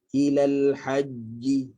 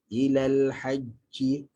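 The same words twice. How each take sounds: First: The consonant is a plain j without breath. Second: The consonant is a breathy ch sound. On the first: The speaker calls it right. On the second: The speaker calls it wrong.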